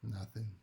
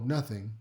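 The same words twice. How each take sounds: First: It sounds hesitant and sulky. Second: It sounds casual and unbothered. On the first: Something is wrong and they want to be asked more. "Maybe they say it like this" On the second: They were simply distracted or tired. "maybe they were just zoned out, they're tired"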